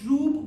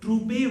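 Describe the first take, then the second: First: The word ends without a final vowel sound. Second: The word ends with an extra vowel sound. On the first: The speaker calls it right. "एंड का ई silent होता है" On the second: The speaker calls it wrong. "ये ट्रूबे लफ्ज़ कोई नहीं होता, ये गलत बोलते हैं"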